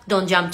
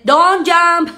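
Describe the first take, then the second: First: The vowels are said with a closed mouth. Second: The vowels are said with a wide-open mouth. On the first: The speaker calls it right. "cierren más la boca, acuérdense que en español la boca se abre más, y en inglés más cerradita" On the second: The speaker calls it wrong. "En lugar de"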